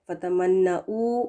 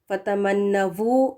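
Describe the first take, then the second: First: A glottal stop comes before the final u. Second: The final consonant is a v sound. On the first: "हमजा पेश ... ये भी गलत होगा" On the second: "वी लगाकर पढ़ें ... गलत है"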